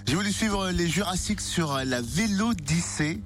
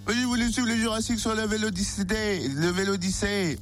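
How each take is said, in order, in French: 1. Le locuteur parle avec son accent naturel. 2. Le locuteur parle avec un accent imité. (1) "On va le faire normal" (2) "C'est compliqué avec l'accent de Bourville"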